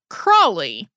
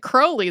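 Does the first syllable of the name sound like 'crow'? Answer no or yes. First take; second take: no; yes. First: The first syllable does not sound like 'crow'. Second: The first syllable sounds like 'crow'. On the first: This is the common American way of saying it. "you have probably gotten really used to the pronunciation Aleister Crowley" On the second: This is how the man himself said it. "He said it Crowley, though. The brewery that his family owned even had crows on the labels"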